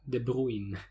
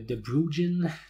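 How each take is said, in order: First: The name is said without a J sound. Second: The name is said with a J sound. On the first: The speaker calls it right. "la bonne prononciation, c'est de prendre le J muet" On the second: The speaker calls it wrong. "j'ai vu toutes sortes de prononciations de ça"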